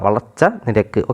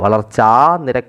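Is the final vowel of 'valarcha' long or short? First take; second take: short; long. First: The last vowel of valarcha is short. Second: The last vowel of valarcha is long. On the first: The speaker calls it right. "അവിടെ ദീർഘിച്ച് പോകണില്ല" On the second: The speaker calls it wrong. "എന്നല്ല"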